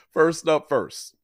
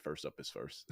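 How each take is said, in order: First: First up first drawn out very slow, higher pitch; emphatic slow catchphrase. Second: Dropped low and soft under the breath; quiet repeat. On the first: Hyping viewers for the first NFL pick, slow emphatic. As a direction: lean into each word like a slogan. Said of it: "I said first up is first". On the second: Repeating the catchphrase to himself, soft and low. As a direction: mutter it to yourself, almost throwaway. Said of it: "I said". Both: Shown as a demonstration.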